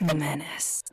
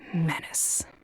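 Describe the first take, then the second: First: It is said with a growl. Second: It is said without a growl.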